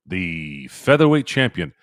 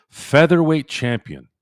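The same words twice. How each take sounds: First: Said in the usual way. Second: Higher, slow ring-announcer "Featherweight champion"; announcer call. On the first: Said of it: "announcer phrasing". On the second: Shown as a demonstration. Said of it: "announcer-style repeat".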